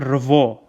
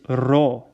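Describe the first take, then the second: First: The syllable is said with a v sound. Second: The syllable is said without a v sound. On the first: The speaker calls it wrong. "it's it's not revo" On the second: The speaker calls it right. "That's why the pronunciation is ro"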